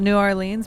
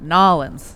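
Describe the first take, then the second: First: The name is said fully with all syllables. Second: The name is squeezed into two short syllables. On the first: This is how an outsider says the name. "I would call it New Orleans" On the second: This is how people from the area say the name. "people around were calling it Nolans"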